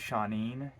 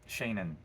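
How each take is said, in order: First: The name sounds like 'Shawneen', Irish style. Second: The name sounds like 'Shannon', English style. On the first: "Should be Shawneen. It's like little Sean" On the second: "that's how it's pronounced"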